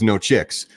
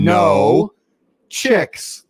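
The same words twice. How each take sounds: First: The two words run together without a pause. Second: There is a pause after the first word.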